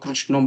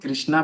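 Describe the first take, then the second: First: The word ends in an o vowel. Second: The word ends in a long a vowel. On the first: People in Bengal say it this way. "जब आप बंगाल में आएंगे तो कृष्णो बोलेगा" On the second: Some people say it this way. "लेकिन कोई कृष्णा भी कहता है"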